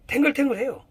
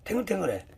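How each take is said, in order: First: 탱글탱글해요 said higher and bright, lifting the pitch on the word; lively emphasis. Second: Soft echo. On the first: Showing students a plump healthy leaf, with a raised lively voice. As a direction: give 탱글탱글해요 a lifted, eager push. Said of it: "repeats the word, first take raised". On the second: Echoing the word to students, said softly under the breath. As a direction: let 탱글탱글해 fall away quietly to yourself. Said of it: "repeats the word, second take soft". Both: Shown as a demonstration.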